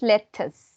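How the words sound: The middle t is a clear t sound. "British English lettuce"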